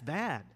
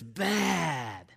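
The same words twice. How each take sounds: First: The word is said in a plain, neutral way. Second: The word is said in a marked, emphatic way. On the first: Something is of poor quality. "If something's bad, it's bad" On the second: Something is really good. "if you say it in a different way, it means something else"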